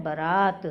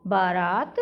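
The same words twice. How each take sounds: First: बारात with a short first vowel, "ba-raat"; correct बारात. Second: बारात with a long first vowel, "baa-raat"; mispronounced बारात. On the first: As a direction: clip the first a in बारात, stretch the second. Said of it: "शुद्ध होता है". (बारात का पहला स्वर छोटा, "बरात") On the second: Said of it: "अशुद्ध रूप आ गए". (बारात में पहला आ लंबा, "बा-रात") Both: Shown as a demonstration.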